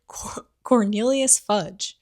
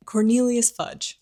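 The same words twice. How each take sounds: First: Said in the usual way. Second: "Cornelius Fudge" said slow and louder through a laugh; laughing correction. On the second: Real, not acted. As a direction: land the name clearly, laughing at the slip. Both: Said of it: "I almost said Coriolanus".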